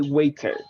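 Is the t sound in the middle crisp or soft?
crisp. The middle t is crisp and clearly released. "if you go for the British, you say"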